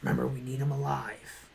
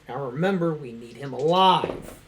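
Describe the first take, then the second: First: It is said in a put-on character voice. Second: It is said in his normal voice.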